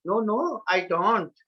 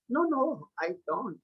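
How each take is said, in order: First: "No, no, I don't" with firm weight on "don't"; louder second take. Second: "No, no, I don't" said softly, dropping away on "don't"; soft first take. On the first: Teacher demonstrating intonation to students, louder and firmer. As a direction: keep full voice through to "don't". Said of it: "after that loudly". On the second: Teacher demonstrating intonation to students, softly. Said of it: "first slowly and after that loudly". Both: Shown as a demonstration.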